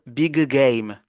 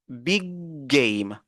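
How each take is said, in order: First: The two G sounds are released separately. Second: The two G sounds merge into one long G. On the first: The speaker calls it wrong. "on ne va pas dire big game" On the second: The speaker calls it right. "on prolonge un peu le G"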